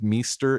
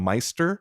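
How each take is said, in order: First: The name's vowel sounds like 'ee'. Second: The name's vowel sounds like 'eye'. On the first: The speaker calls it wrong. "I pronounced her name as Meester" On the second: The speaker calls it right. "instead of Meister"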